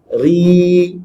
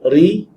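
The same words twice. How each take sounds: First: The vowel is drawn out long. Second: The vowel is said short.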